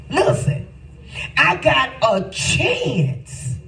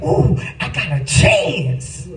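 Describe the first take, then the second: First: Higher, slow, drawn-out exclaim; excited cry. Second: Said in the usual way. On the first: Shown as a demonstration. Preacher repeating his own thought, higher and slowed. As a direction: stretch out I got a chance, pitched up.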